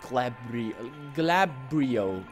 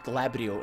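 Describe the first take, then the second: First: The name ends with an 'oh' sound. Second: The name ends with an 'oo' sound. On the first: The speaker calls it wrong. "and not Glabrio" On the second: The speaker calls it right. "I like to pronounce it Glabrio"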